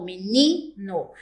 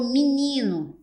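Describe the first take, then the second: First: "menino" slow and careful, clear e in the first syllable; standard menino. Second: "menino" said as minino, e raised to i. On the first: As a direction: spell out the standard "menino" slowly, me-ni-no. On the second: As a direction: model the casual "menino" as minino. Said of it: "então ficou menino". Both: Shown as a demonstration.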